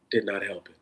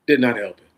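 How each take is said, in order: First: Said in the usual way. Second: "Did" hit hard and louder, falling; emphatic repeat. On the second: Real, not acted. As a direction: hammer "Did" home. Repeats line with rising force.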